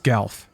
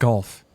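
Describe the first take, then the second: First: The vowel sounds like the one in 'gal'. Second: The vowel sounds like the one in 'golf'. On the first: The speaker calls it right. "It's Galf" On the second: The speaker calls it wrong. "Not golf"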